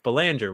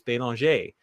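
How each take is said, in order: First: The name is said with an American pronunciation. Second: The name is said with a French pronunciation. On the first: "which is how I pronounce it here in the United States" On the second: "I pronounce it like the locals"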